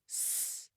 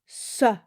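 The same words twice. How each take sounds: First: The consonant is a pure stretched sound. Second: The consonant ends with an added uh vowel. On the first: The speaker calls it right. "try saying the sound as a pure stretched sound, no uh at the end" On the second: The speaker calls it wrong. "adding an uh sound to consonants, saying s instead of s"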